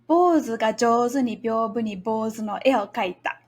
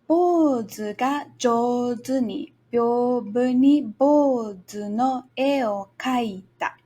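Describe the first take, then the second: First: The phrase is spoken at a fast pace. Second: The phrase is spoken at a slow pace. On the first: "then faster a second time" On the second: "Let's try it slowly together once"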